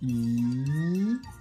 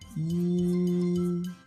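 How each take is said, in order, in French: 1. Ça se dit avec le deuxième ton du mandarin. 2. Ça se dit avec le premier ton du mandarin.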